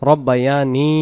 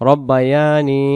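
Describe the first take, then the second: No difference in how they are said.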